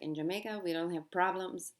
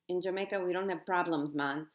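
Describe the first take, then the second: First: It is said in the speaker's plain accent. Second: It is said in an imitated Jamaican accent.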